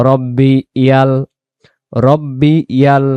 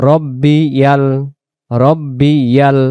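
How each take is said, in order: The two takes are said the same way.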